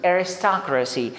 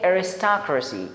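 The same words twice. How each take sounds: No difference in how they are said.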